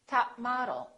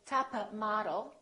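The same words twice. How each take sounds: First: The p in top is held, not released. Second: The p in top is released audibly. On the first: The speaker calls it right. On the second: The speaker calls it wrong. "Don't say"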